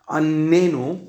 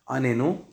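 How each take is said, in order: First: The first n sound is doubled and held longer. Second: Both n sounds are short and single. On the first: Torture us. The speaker calls it wrong. "first nun, dagush, second nun, rafui, that means torture us" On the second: Answer us. The speaker calls it right. "both rafui, both nuns rafui, answer us"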